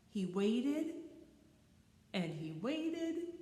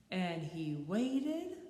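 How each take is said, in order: First: Drawn out waiting. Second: Each word stretched very slow; slow drawn out waiting. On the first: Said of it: "repeated word performed". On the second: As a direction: draw out "waited" slowly, rising. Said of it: "repeated word slowed". ("waited" alargado muy lento) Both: A narrator's reading.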